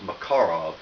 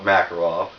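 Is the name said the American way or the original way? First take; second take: original; American. First: The name is said in its original pronunciation. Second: The name is said in an Americanized pronunciation. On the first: "the correct way to pronounce the name is" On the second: "Because I'm a typical American redneck, ... I call it"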